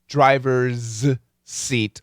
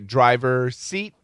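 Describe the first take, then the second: First: A possessive s sound blends into seat. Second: No possessive s sound is heard before seat. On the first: The speaker calls it right. "No, driver's seat" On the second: The speaker calls it wrong. "Lots of people miss this"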